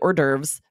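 The word is pronounced with English sounds. This is the usual adapted pronunciation in the US. "I'm still going to say hors d'oeuvres because I'm in the US and that's how we just anglicize it here"

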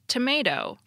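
It is said with an American pronunciation. "the use of American alternatives like tomato"

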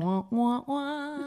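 It sounds upbeat and cheerful. The episode was great. The speaker calls it right. "Yeah, there you go. Perfect"

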